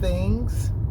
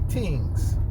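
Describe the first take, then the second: First: The word begins with a TH sound. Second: The word begins with a plain T sound. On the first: "instead of saying things" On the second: "we'll cut the H and say things"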